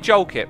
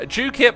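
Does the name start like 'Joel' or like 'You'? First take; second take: Joel; You. First: The name begins with a 'Joel' sound. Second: The name begins with a 'You' sound. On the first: This is the usual reading of the name. The speaker calls it wrong. "I'm going to keep calling you Jolkip" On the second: This is how the name's owner says it. The speaker calls it right. "Jukip, I'll say it for today"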